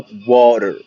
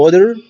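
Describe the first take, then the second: First: Water said as "warer", tapped R sound. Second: Water said as "wader", with a D. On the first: Teacher contrasting two options, water with an R sound. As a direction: turn the T in water into a light R. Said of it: "ممكن أقول water أو water". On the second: Teacher contrasting two options, water with a D. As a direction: sound the T in water as a clear D. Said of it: "ممكن أنطقها دي أو آه". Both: Shown as a demonstration.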